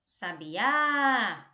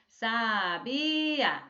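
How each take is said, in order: First: The word flows smoothly as one unit. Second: The word is split into separate syllables. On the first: The speaker calls it right. "olha como é que fica" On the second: The speaker calls it wrong. "Não é para vocês falarem a palavra é, é, silabicamente, não"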